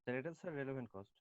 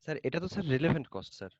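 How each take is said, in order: First: Soft, under-projected answer; too quiet. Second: Clearer, more projected answer; speaking up. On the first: Student answering the teacher about relevant cost, too quietly. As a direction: answer quietly, barely reaching the listener. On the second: Student repeating the answer for the teacher, speaking up. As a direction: repeat it so the teacher can hear. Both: Real, not acted. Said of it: "আপনি একটু জোরে বলেন".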